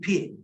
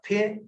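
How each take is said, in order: First: The vowel is a long 'ee' sound. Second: The vowel is a short 'ih' sound. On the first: This is the Spanish influenced English pronunciation. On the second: This is the general English pronunciation.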